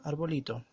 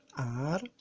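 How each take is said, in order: First: Said in the usual way. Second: "arbolito" broken into ar, bo, li, to; syllable by syllable. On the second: Shown as a demonstration. Teacher counting sound beats in arbolito, syllable by syllable.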